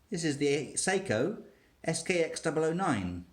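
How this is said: The speaker sounds unsure and hesitant. The speaker seems unsure of the name. "I sounded hesitant"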